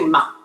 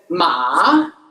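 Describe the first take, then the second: First: The pitch stays low without rising. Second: The pitch dips low, then rises again. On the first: "when you're speaking, you just say ma" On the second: "two, one, four. It has a dipping sound"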